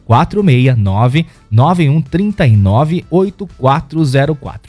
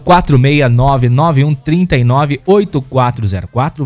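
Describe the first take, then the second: First: The number is said slowly. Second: The number is said fast.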